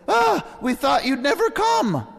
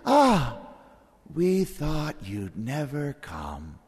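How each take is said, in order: First: It is said in a glad, eager tone. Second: It is said in a fearful, dismayed tone. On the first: The arrival is eagerly welcomed. "Are we looking forward to the Lord's return?" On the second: The arrival is feared. "Or are we dreading it?"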